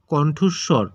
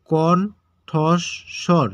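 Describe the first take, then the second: First: Said in the usual way. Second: কণ্ঠস্বর very slow, in three separate syllables; broken into syllables. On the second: Shown as a demonstration. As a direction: pause after each syllable of কণ্ঠস্বর. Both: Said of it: "এটাকে ভেঙে উচ্চারণ".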